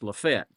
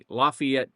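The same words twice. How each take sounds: First: It is pronounced the local, regional way. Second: It is pronounced the standard, expected way. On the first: This is how people in the area say it. "not here. It's Lafayette" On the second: This is how outsiders would expect it to sound. "is what you would think"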